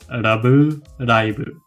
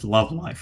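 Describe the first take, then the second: First: It is pronounced with Japanese sounds. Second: It is pronounced with English sounds. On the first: "So you just convert that to katakana Japanese" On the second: "if we say Love Live just in English, it's just Love Live"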